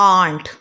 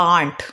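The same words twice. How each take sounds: Both takes have the same delivery.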